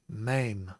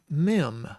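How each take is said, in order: First: The vowel is an 'ay' sound. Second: The vowel is a short 'eh' sound. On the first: The speaker calls it right. "It is maim" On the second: The speaker calls it wrong. "that makes me say mem"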